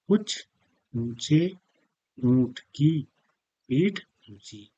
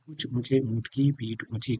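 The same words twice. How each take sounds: First: The phrase is spoken at a slow pace. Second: The phrase is spoken at a fast pace. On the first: "ये तो हमने बहुत जल्दी में नहीं पढ़ा है" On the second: "जैसे जल्दी-जल्दी बोलेंगे"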